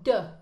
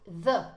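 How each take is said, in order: First: It starts with a light d sound. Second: It starts with a soft th sound. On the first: "quelque chose de très discret comme de" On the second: "bien prononcer the"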